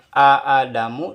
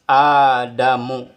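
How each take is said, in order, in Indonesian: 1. Dua vokal terpisah membuka kata, dipisahkan hamzah. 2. Satu vokal panjang membuka kata.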